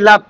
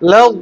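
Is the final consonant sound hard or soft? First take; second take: hard; soft. First: The final consonant sounds hard, like a d. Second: The final consonant is said softly. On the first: The speaker calls it wrong. "দালের সাথে মিলতেছে।" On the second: The speaker calls it right. "এটা একটু নরম"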